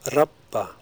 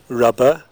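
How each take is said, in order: First: The middle consonant is long and unvoiced. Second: The middle consonant is short and voiced. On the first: "In Icelandic, they're unvoiced" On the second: "Medial lean explosives are usually fully voiced in RP English"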